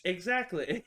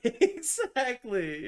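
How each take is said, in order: First: Said in the usual way. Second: High, slow exactly through a laugh; laughing agreement. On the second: Real, not acted. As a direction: stretch it out while laughing. Agreeing with friend, laughing hard.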